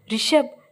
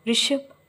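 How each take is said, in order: First: "Rishabh!" called out louder and higher, rising at the end. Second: A mild, shaky first call of his name; trembling call. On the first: Saanvi calls Rishab again when he gives no answer, a louder call. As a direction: shout his name to wake him. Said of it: "ಈ ಬಾರಿ ಅವಳು ಜೋರಾಗಿ ಕರೆದಳು". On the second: Saanvi calls to Rishab lying still on her, a lightly trembling call. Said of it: "ಅವಳು ನಡುಗುವ ಧ್ವನಿಯಲ್ಲಿ ಕರೆದಳು". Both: A narrator's reading.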